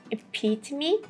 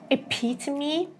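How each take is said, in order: First: The T in the middle is a crisp T. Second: The T in the middle is a crisp T.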